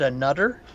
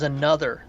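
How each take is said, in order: First: It is said in a Newfoundland accent. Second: It is said in a standard accent.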